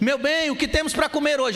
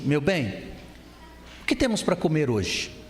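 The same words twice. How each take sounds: First: The question is spoken much louder. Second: The question is spoken at normal volume. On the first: "Aí ele subiu mais o tom" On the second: "Falou assim"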